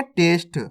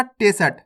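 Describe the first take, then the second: First: टेस्ट said as "test", s running straight into t; half-letter reading. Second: टेस्ट said as "te-sat", with a vowel after the s; wrong full-letter reading. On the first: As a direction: keep टेस्ट one syllable, no vowel after s. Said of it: "कैसे पढ़ेंगे?". (टेस्ट में आधा स, सीधे ट से जुड़ा) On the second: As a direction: split टेस्ट into two syllables, "te-sat". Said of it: "आपको ऐसे नहीं पढ़ना". (टेस्ट को पूरे स के साथ "टेसट" पढ़ें) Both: Shown as a demonstration.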